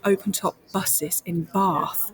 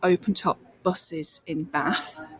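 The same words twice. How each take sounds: First: It is said with standard BBC-style vowel sounds. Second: It is said with regional vowel sounds. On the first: This is how the speaker was trained to talk. "They would be" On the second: This is how the speaker naturally talked. "I was taught to change my vowel sounds so that I wouldn't talk about"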